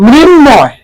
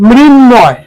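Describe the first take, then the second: No difference in how they are said.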